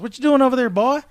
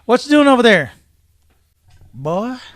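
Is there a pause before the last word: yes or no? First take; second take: no; yes. First: It is said without a pause before "boy". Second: There is a pause before "boy".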